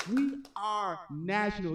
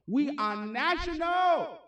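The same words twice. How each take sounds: First: Said in the usual way. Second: Slow, drawn-out proud shout; hyped shout. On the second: Real, not acted. Host boasting to stream viewers, slow hyped shout. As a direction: call it out big and slow to hype the crowd. Hyping the livestream audience.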